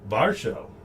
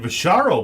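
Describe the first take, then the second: First: The name is said as Varsho. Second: The name is said as Visharo. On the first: The speaker calls it right. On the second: The speaker calls it wrong.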